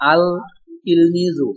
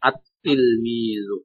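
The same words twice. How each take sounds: First: আল তিলমিজু with the L sounded, the incorrect form; teacher showing the wrong আল তিলমিজু. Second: আত-তিলমিজু very slowly, L dropped, T doubled; teacher modelling the correct আত-তিলমিজু; right way, doubled t. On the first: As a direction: say আল তিলমিজু as the mistake to avoid. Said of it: "এমন হবে না।". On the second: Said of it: "তার উপরে তাসদিদ হবে।". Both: Shown as a demonstration.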